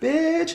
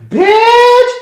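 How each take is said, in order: First: The word is said at a low volume. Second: The word is yelled loudly. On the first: The person is cursing at someone close by. The speaker calls it right. "Get closer to that person and then" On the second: The person is cursing at someone far away. The speaker calls it wrong. "like way across the day"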